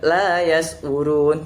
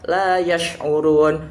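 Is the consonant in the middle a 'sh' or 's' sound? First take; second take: s; sh. First: The middle consonant is a plain 's' sound. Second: The middle consonant is a 'sh' sound. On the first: The speaker calls it wrong. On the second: The speaker calls it right.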